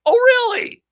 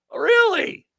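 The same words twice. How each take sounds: First: Shrieked high "really?" falling hard; a loud, incredulous "Oh, really?"; sarcastic shout of disbelief; mock disbelief. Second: High squeaky "really?" dropping away; mock surprise, pitched up high; sarcastic disbelief. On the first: Mocking disbelief at DOJ denial.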